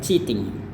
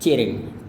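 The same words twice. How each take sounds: First: The t is said as a crisp t. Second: The t is softened into a quick flap. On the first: "Kalau mau aksen Inggris atau aksen internasional, dia biasa T-nya tetap kita lafalkan seperti biasa" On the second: "Tapi kalau Amerika"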